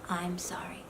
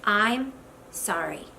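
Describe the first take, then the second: First: Barely whispered, very low; tiny acted whispered apology; husband's reluctant apology. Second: Two slow, separated words; slow, subdued, understated sorry; husband's minimal apology. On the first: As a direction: whisper a grudging sorry under the breath. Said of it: "Even maybe with that kind of face". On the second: Acted. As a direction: imitate a terse husband's apology, slow and low. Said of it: "I'll tell it to you in two words".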